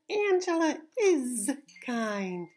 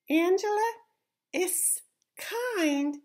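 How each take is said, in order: First: The word 'is' ends with a buzzing Z sound. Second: The word 'is' ends with a hissing S sound. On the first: The speaker calls it right. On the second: The speaker calls it wrong.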